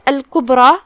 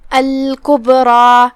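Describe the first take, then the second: First: Said in the usual way. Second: Slow chanted الکبری with a bouncing b; qalqalah on ba. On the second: Shown as a demonstration. Teacher shows the echoing letter, slow الکبری with bounced b. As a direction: bounce the still b in الکبری, draw out the ending. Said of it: "با کو ہلاتے ہوئے".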